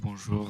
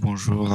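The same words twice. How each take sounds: First: The voice sounds compressed and limited, less loud. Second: The voice sounds loud, with no compressor applied. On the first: "compresseur. Ok. Limiteur" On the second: "Le son est un peu fort"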